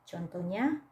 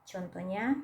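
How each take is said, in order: The two takes are said the same way.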